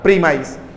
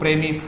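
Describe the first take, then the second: First: The word ends with a long 'mize' sound. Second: The word ends with a short 'miss' sound. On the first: The word is used as a verb. "As a verb ... उच्चारण हो जाएगा प्रीमाइज" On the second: The word is used as a noun. "As a noun ... प्रेमिस होगा"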